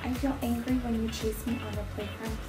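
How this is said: The voice is quiet, weak and timid. The listener may not hear or take it seriously. The speaker calls it wrong. "I don't want to use a voice like this"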